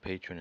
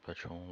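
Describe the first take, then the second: First: The word is pronounced the English way. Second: The word is pronounced the Spanish way. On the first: "or patron if you prefer" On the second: "I will pronounce it patron like Spanish"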